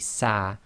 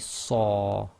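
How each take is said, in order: First: The syllable is said with a light, thin vowel. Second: The syllable is said with a heavy, full vowel. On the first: The speaker calls it wrong. "with sad you can't say sa" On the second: The speaker calls it right. "it must be saw"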